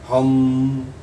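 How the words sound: It is voiced while breathing out. "श्वास बाहर भी जा रही है और आवाज भी हो रही है"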